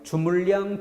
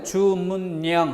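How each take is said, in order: First: The middle consonants are pronounced as l sounds. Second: The middle consonants are pronounced as n sounds. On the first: The speaker calls it wrong. "리을 리을로 발음하면 뭐가 돼?" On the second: The speaker calls it right. "니은 니은으로 발음해 보고요"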